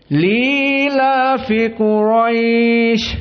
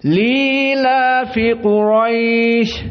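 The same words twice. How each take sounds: No difference in how they are said.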